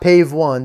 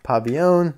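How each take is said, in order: First: The name is said as Pave one. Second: The name is said as Pavillon. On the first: The speaker calls it wrong. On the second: The speaker calls it right.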